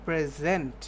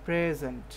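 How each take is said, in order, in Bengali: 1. Stress পড়ে দ্বিতীয় সিলেবলে। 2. Stress পড়ে প্রথম সিলেবলে। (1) "আই উইল প্রেজেন্ট" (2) "ভরটা কোথায় দিচ্ছেন"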